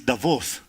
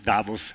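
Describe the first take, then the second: First: The name is said the local Swiss way. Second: The name is said the British way. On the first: The speaker calls it right. "it is Davos" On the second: The speaker calls it wrong. "not Davos, as they say in the British way"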